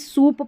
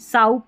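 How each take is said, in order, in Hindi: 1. स्वर लंबी oo ध्वनि है। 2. स्वर ow ध्वनि है। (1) "इसको भी सूप पढ़ेंगे" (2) "साउप नहीं पढ़ सकते"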